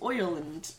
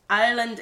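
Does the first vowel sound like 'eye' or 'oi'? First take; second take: oi; eye. First: The first vowel sounds like 'oi'. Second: The first vowel sounds like 'eye'.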